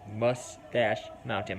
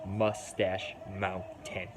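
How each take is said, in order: First: Slow Minnesota accent on "Mustache Mountain"; drawn-out Minnesota vowels. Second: Said in the usual way. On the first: Real, not acted. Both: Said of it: "My stupid Minnesota accent".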